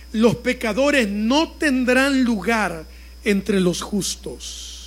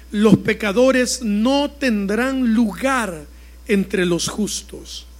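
The two takes are said the same way.

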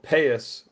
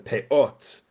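First: The word ends with an s sound. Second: The word ends with a t sound. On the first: This is the Yiddish form. "a Yiddish way of saying it" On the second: This is the Hebrew form. "the Hebrew word is peot"

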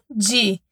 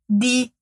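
First: The d is softened into a j-like sound. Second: The d is a hard, plain stop. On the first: The speaker calls it wrong. "e não di" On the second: The speaker calls it right. "o D mais o I é di"

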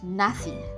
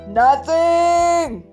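First: The word is said flatly, without extra force. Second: The word is said loudly and with strong force. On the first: The speaker calls it wrong. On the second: The speaker calls it right.

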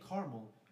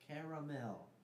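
First: The word is said with two syllables. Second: The word is said with three syllables. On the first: The speaker calls it wrong. "If you say caramel, you're just setting aside letters that are there" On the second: The speaker calls it right. "pronounce them all"

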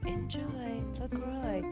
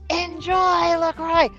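First: It is said with toned-down, moderate energy. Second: It is said with a lot of energy.

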